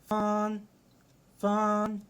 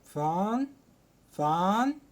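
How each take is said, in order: First: It is said with a flat, level tone. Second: It is said with a rising tone. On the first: "أول واحدة لها آه زي ما تقول كده آه حتة واحدة" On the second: "تاني واحدة بتطلع صوتك فيها"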